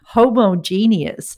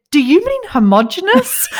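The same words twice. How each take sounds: First: Slow, drawn-out "Homogeneous" with a long e, ho-mo-GEE-nee-ous; mock his five-syllable "Homogeneous", stretched out slowly; mimicking husband's word. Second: High, laughing "homogenous" said with a short o, ho-MOJ-e-nous; laughing as she says "homogenous" the right way, four syllables; correcting homogenous. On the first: Imitating her husband's pronunciation: a slow, drawn-out "Homogeneous". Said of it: "I was just like". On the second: Retold or imitated. To her husband, correcting his word: "homogenous" said laughing and high. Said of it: "And I said".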